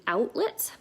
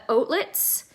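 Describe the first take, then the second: First: "Outlets" opening with a wide ow; softly, carefully say "Outlets" with an American ow. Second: "Outlets" opening with a round o like "oat"; Canadian "Outlets". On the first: Canadian copying American viewers' way, wide ow in "Outlets". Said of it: "or as you would say, maybe". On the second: East Coaster on her aunt's home, rounded o in "Outlets". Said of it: "or as you would say". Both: Shown as a demonstration.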